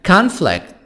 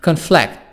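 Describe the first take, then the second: First: The stress is on the first syllable. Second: The stress is on the second syllable. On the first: It is used as a noun. "الكلمة دي كانت noun" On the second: It is used as a verb. "ضغطت على آخر الكلمة"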